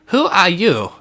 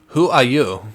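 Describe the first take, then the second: First: It is said in a nerdy German accent. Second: It is said in the speaker's plain voice. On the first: "We gotta have like a nerdy German scientist voice" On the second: "I forgot that I have to come up with a voice for this guy"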